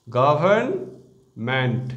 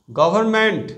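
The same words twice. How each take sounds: First: government split slowly into syllables, গভ-র্ন-মেন্ট; broken into syllables. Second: Said in the usual way. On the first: Shown as a demonstration. Teacher showing students how to split the word, slow syllables. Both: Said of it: "এভাবে syllable ভেঙেও".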